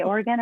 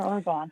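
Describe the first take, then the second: First: Said in the usual way. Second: Oregon with the last syllable as GON; variant pronunciation. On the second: Shown as a demonstration. Asking the interviewer which she says, variant pronunciation of Oregon. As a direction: say Oregon to end like "gone". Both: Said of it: "Do you say Oregon or Oregon?".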